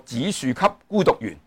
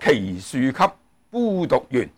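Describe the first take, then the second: First: The first syllable is pronounced like zi. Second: The first syllable is pronounced like kei. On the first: The reading follows the Sanskrit prince's name. "我头先咧就读呢个紫树给孤独园" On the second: The reading is the one most people conventionally use. "多数人都系读做"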